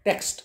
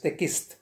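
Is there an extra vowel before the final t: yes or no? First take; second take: no; yes. First: The word is said without an extra vowel. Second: The word is said with an extra vowel.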